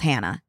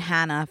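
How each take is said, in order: First: "Hannah" with the newer A, after moving; changed A. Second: Put-on "Hannah" with the old Philly short A. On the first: Telling friends how it changed after moving, newer A in "Hannah". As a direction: say "Hannah" with the A that replaced the Philly one. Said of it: "and now it's Hannah". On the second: Summing up twenty-four years of saying it, Philly A in "Hannah". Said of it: "I've said Hannah for twenty-four years". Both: Shown as a demonstration.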